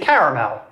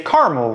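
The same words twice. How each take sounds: First: The word is said with three syllables. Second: The word is said with two syllables. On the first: This is how much of the East Coast and Southeast says it. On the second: This is how large regions of the US say it.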